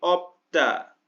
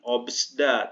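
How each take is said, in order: First: No s sound is pronounced before 'da'. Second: An s sound is pronounced before 'da'. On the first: The speaker calls it right. "tapi opda" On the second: The speaker calls it wrong. "bukan obsda"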